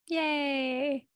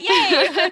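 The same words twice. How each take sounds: First: It is said in a half-hearted way. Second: It is said in an enthusiastic way.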